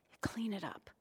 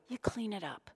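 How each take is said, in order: First: Whisper. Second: Said in the usual way. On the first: Shown as a demonstration.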